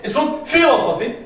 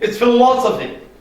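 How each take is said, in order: First: The stress falls away from the third-last syllable. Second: The stress falls on the third-last syllable. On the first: The speaker calls it wrong. "not philosophy" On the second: The speaker calls it right.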